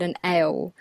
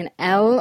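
First: The letter L in another accent's pronunciation; alternative accent L. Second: Said in the usual way. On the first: Shown as a demonstration. Accent coach contrasting two kinds of L, second L altered. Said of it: "or is it an L". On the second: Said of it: "are we pronouncing an L".

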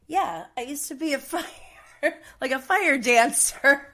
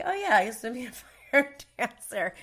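First: Quoting Tony, laughing through the words. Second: Offhand, casual imitation of Tony; nonchalant. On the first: Retold or imitated. Telling listeners about Tony, laughing while quoting him. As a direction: giggle through the fire dancer line. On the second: Imitating Tony's casual brag to the crew, nonchalant. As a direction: toss it off like it's nothing. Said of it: "He just said it so, like, nonchalantly".

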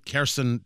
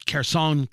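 First: Kherson said KHER-sun, reduced final vowel; alternate pronunciation. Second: Kherson said KHER-sahn, stressed first syllable, open final o; one pronunciation. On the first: Host offers the viewer the other way to say the city, KHER-sun. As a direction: say Kherson with a quick -sun ending. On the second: Host offers the viewer one way to say the city, KHER-sahn. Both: Shown as a demonstration. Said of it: "depending on how you want to say it".

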